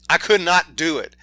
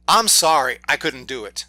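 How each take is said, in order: First: "could not" split apart and punched louder; emphatic stress. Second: Said in the usual way. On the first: Real, not acted. Reviewer insists he couldn't stand the film, "could not" stressed hard.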